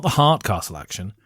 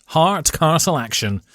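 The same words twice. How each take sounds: First: "heart" picked out in a lower-pitched phrase; stress on heart. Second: "Hard" drawn out slowly and pitched up; stress on Hard. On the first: Ben ruling out the other word, "heart" stressed. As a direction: drop the pitch, marking "heart" as the wrong word. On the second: Ben clarifying which castle action, "Hard" stretched out. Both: Shown as a demonstration. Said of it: "Not the heart castle action".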